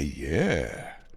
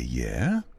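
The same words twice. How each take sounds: First: It sounds thrilled and delighted. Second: It sounds curious and questioning.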